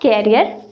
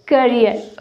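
First: The first syllable sounds like 'care'. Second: The first syllable sounds like 'cur'. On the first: The speaker calls it wrong. "Not कैरियर" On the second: The speaker calls it right. "It's करियर"

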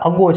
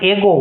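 First: The word begins with an 'uh' vowel sound. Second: The word begins with an 'eh' vowel sound. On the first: The speaker calls it right. "આ અગો છે. અહીંયા પણ આનો phonic sound અ છે" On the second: The speaker calls it wrong. "ઘણા આને એગો વાંચે, આ એગો નથી"

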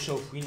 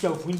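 First: The name begins with an sh sound. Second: The name begins with a k sound. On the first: This is how the speaker thinks it should be said. The speaker calls it right. "pour moi c'est Chaofouine" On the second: This is how some other people say it. The speaker calls it wrong. "Il y en a qui disent Chaofouine"

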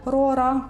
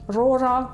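First: The r is said the Ukrainian way. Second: The r is said a non-Ukrainian way. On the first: "на український манер" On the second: "чи, наприклад"

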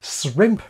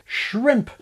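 First: The word begins with an s sound before r. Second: The word begins with an sh sound before r. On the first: The speaker calls it wrong. "But English has no words beginning S, R. No" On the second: The speaker calls it right. "words where SH and R form a cluster, like at the start of shrimp"

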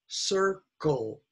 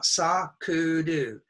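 First: It has English-style syllables without added vowels. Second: It has Japanese-style syllables with added vowels. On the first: The speaker calls it right. "It's circle" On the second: The speaker calls it wrong. "Don't say sakuru. It's not sakuru"

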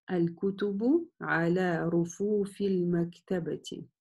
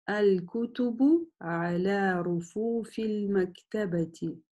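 No difference in how they are said.

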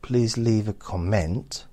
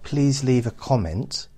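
First: The stress is on the second syllable of comment. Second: The stress is on the first syllable of comment. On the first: The speaker calls it wrong. "that's going to be this too much emphasis on the ent" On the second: The speaker calls it right. "everyone's going to understand that"

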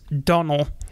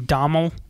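First: The name is said without an M sound. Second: The name is said with an M sound. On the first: The speaker calls it right. "you don't say the M's. So it's" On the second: The speaker calls it wrong. "how long I was pronouncing his name"

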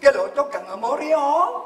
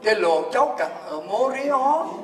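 First: The sentence is spoken quickly. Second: The sentence is spoken slowly. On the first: "Giờ tôi nói lại để quý ông bà ai là người Huế nghe kịp không?" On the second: "tôi đọc chậm"

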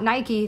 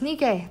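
First: It is pronounced the way the brand name is. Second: It is pronounced the way the goddess's name is. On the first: It names the sports brand. The speaker calls it wrong. "not Nike, the sports brand" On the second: It names the Greek goddess of victory. The speaker calls it right. "that's how you properly pronounce it"

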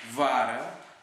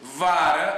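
First: The words are spoken somewhat loudly. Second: The words are spoken very loudly. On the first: "Din nou, puțin mai tare" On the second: "Din nou, mult mai tare"

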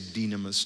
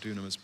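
First: It is pronounced the way Greek speakers say it. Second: It is pronounced the way non-Greek speakers say it. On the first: "if you're Greek, I know that they say dynamis" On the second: "I say it that way because I'm not Greek"

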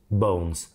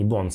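First: The vowel glides as a double sound. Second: The vowel is one pure, unchanging sound. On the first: The speaker calls it right. "звук o, двойной" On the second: The speaker calls it wrong. "Многие ошибаются и говорят bones. Это не bones"

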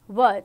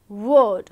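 First: The vowel sounds like 'er', as in 'her'. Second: The vowel sounds like 'or', as in 'fork'. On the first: The speaker calls it right. "We will say word" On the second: The speaker calls it wrong. "We will not say word"

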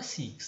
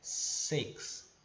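First: The vowel sounds like a full ee sound. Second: The vowel is a shorter, looser i sound. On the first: The speaker calls it wrong. "mas não é six" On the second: The speaker calls it right. "esse sonzinho do i não fosse um i de verdade"

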